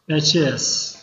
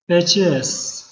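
The two takes are said the same way.

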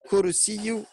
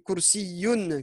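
First: The word ends without a final n sound. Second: The word ends with a final n sound. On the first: The speaker calls it wrong. "Kursiyu, c'est faux" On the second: The speaker calls it right. "c'est Kursiyun qu'il faut mettre. Kursiyun avec un tenwin"

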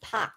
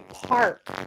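First: The R sound is dropped. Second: The R sound is clearly pronounced. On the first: The speaker calls it wrong. "not park" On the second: The speaker calls it right. "you say park"

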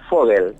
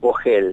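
First: The name is said with German pronunciation. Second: The name is said with Argentine Spanish pronunciation. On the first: "En alemán es Vogel" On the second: "en tucumano básico o argentino patriota es Vogel"

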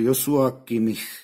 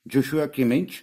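First: The name is pronounced in a Czech way. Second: The name is pronounced in an English way. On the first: This is how Czech reporters say the name. "naši reportéři to vyslovují Joshua, dokonce" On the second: This is how English speakers say the name. "Angličani to vyslovují Kimmich"

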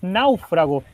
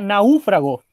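First: The stress falls on the a sound. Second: The stress falls on the u sound. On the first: The speaker calls it right. "Y la palabra es náufrago" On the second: The speaker calls it wrong. "si tú dices que lleva tilde en la U, sería náufrago"

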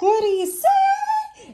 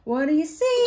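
First: It is said in a high falsetto voice. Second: It is said in a normal speaking voice.

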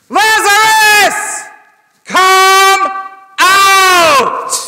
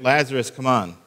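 First: It is shouted very loudly. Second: It is said quietly and casually.

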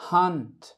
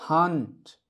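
The two takes are said the same way.

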